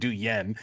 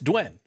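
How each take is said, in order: First: The name is said the way heard as 'Duyen'. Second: The name is said the way heard as 'Dwayne'. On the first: The speaker calls it wrong. "I've been saying her name wrong this entire time" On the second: The speaker calls it right. "but it's Dwayne"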